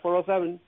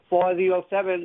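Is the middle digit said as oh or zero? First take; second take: oh; zero. First: The middle digit is said as oh. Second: The middle digit is said as zero. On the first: The speaker calls it wrong. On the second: The speaker calls it right.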